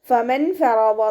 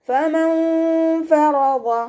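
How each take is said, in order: First: The n sound is pronounced clearly and fully. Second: The n sound is hidden into a nasal hum. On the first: The speaker calls it wrong. "എന്ന് ഓതരുത്" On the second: The speaker calls it right. "അതുപോലെ ഓതാൻ ശ്രദ്ധിക്കേട്ടോ"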